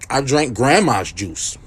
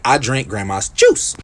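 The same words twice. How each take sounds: First: Slow, GRANDMA'S leaned on; stress on "grandma's". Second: Slow, low, landing on JUICE; "grandma's" passed over, weight on "juice"; stress on "juice". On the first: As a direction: drag it out, weighting "grandma's". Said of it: "the way you said that". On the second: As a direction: draw it out and set "juice" apart. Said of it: "You say". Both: Shown as a demonstration.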